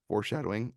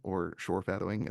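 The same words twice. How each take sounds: First: Said in the usual way. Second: "shorefadowing" said with the sh and f sounds swapped. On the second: Retold or imitated. Quoting the brother-in-law's joke word, "shorefadowing" with the sh and f swapped. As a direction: say "shorefadowing" as a spoonerized foreshadowing. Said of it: "as my brother-in-law likes to call it".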